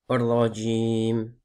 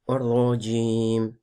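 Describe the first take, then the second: Both takes have the same delivery.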